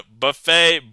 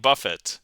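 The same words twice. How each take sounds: First: "buffet" as buh-FAY, silent t; French-style pronunciation. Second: "buffet" as BUFF-it, sounded t; rhymes with rough it. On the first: Streamer reading a tricky poem aloud, French-style pronunciation. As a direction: end "buffet" on an open AY. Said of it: "this has got to be buffet". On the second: Streamer correcting the rhyme in a poem, BUFF-it pronunciation. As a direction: stress the first syllable of "buffet", hard t. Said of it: "got to be buffet, 'cause rough it". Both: Shown as a demonstration.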